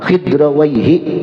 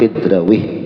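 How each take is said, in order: First: The name ends in a longer 'waihi' ending. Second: The name ends in a short 'wih' syllable. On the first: The speaker calls it right. "Nah Khidrawaihi itu Khidrawaihi" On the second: The speaker calls it wrong. "Oh salah"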